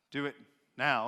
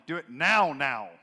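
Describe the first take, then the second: First: Said in the usual way. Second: "now, now" repeated, the first "now" louder; doubled now for emphasis. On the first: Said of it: "instead of saying". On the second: Shown as a demonstration. Preacher showing doubling for emphasis on "now". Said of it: "it'd be".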